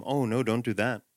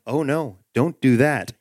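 First: Softly level, unbothered; calm and quiet. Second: Level, measured warning; gently firm, keep it even; calm inner voice. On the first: Retold or imitated. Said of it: "very calmly and quietly say". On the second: Acted. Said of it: "this quiet, calm voice".

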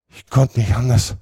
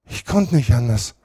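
First: Höher, gequält gedehnt; stöhn es gequält; stöhnend. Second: Stöhnend. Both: A narrator's reading. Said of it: "stöhnte Potter".

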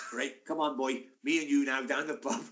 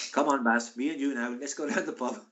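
First: Lightly attempted Swansea accent. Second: Put-on botched South Wales accent sliding into Indian. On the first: Teammate coaxing his pal to the pub, rough Swansea accent. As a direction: have another go at South Wales. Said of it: "he's from Swansea". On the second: Teammate coaxing his pal to the pub, botched Indian-sounding Welsh accent. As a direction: attempt Welsh, drift into an Indian lilt. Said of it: "that's, that's an Indian accent".

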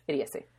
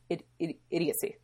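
First: Said in the usual way. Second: "idiocy" stammered as id-, id-, before getting it out; stumbling over the word. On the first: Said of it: "That's the word". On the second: Real, not acted. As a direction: trip twice on "idiocy" then land it. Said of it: "There we go. That's the word".

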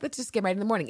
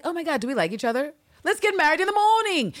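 First: Said in the usual way. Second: High-pitched, over-excited proposal; mock gushing. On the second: New sweethearts deciding to marry, high mock gushing. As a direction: blurt it out high, mock lovestruck. Gushing quote, repeated more plainly later.

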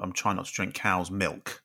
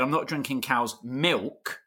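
First: Cow's MILK leaned on, said slowly; odd emphasis on milk, not cow's; stress on milk. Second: Slow, teasing MILK pressed hard; mimicking a mate's stress on milk; mock stress on milk. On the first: Real, not acted. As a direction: weigh down the word milk, slowly. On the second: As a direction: parody the odd stress on milk, slowly. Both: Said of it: "the way you put the emphasis on milk".

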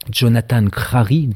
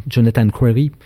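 First: Said in the usual way. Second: French speaker attempting an English pronunciation; clumsy English accent. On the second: Real, not acted. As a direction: say Crary with an English r, in a rough English accent. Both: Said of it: "mon accent anglais est catastrophique".

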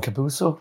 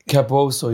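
First: "Capuso" softly, with an -uso ending; unsure second attempt. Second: "Capuoso" said with an -oso ending; first attempt at name. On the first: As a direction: try "Capuso?" quietly as a question. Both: Real, not acted. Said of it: "I probably pronounced that wrong".

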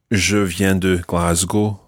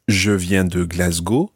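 First: "Glasgow" left in its English pronunciation within slow French; Glasgow without French accent. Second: "Glasgow" pronounced the French way in a slow French phrase; Glasgow in French accent. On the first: Teacher showing learners what to avoid, "Glasgow" said the English way. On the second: Teacher showing learners the better way, "Glasgow" in a French accent. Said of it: "say them in a French accent". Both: Shown as a demonstration.

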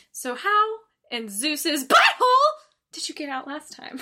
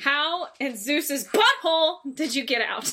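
First: Animated movie quote. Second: Quoting Zeus's butthole with a laugh in it; quoting the actor. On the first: Friend mimics the actor getting animated, excited. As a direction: start calm, then burst into it. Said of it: "he gets, like, really animated". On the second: Friend quotes the Nicolas Cage line, amused. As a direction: read the movie line half-laughing. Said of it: "That's how he says it". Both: Retold or imitated.

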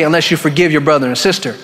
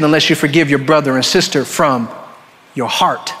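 First: Said in the usual way. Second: "from your heart" set apart, low, with a pause after "from"; stress on ending. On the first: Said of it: "He didn't just stop and say". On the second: Shown as a demonstration. Preacher shows what the verse adds, weighty pause before "your heart". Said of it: "But he said".

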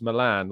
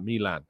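First: Milan with a short first vowel, "mi-LAN"; unstressed, short "Mi" in Milan; usual English pronunciation. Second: Milan with a long first vowel, "MEE-lan"; questioned pronunciation. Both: Shown as a demonstration. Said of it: "Why do you pronounce Milan like".

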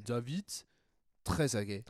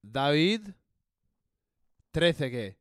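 First: "Trezeguet" in French, uvular r, ending "-gay"; French accent. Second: Spanish accent. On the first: Host tries the name again in a French accent. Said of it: "a, a French accent". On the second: Host tries the name in a Spanish accent for listeners. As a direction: lean Spanish on "Trezeguet". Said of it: "tried ... with both a Spanish sounding and". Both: Shown as a demonstration.

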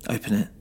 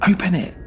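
First: A light crack in the voice, held back; voice cracking slightly. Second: High, loud command; shouting. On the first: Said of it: "her voice cracking slightly". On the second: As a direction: shout the order at him. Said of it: "Graham shouted". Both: Acted.

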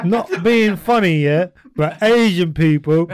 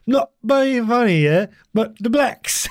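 First: A hint of an East London woman, slow, pitched up; mock East London voice. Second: Put-on slow, higher East London old lady; East London impression. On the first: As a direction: lightly imitate an old East Londoner. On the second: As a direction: imitate an older East London woman, drawn out. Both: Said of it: "so they'll be like".

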